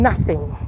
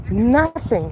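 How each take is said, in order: First: Deep emphatic no. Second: Said in the usual way. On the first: Real, not acted. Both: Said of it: "ain't thirsty at all".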